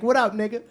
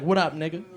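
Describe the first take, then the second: First: Lightly voiced little white boy, higher pitch; cute little white voice. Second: Said in the usual way. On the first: Son greets his dad back, imitated cute little white voice. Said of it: "in this cute little white voice". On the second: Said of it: "I used to go up to him".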